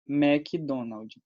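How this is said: It is said with a Brazilian Portuguese pronunciation. "Aqui a gente fala McDonald's"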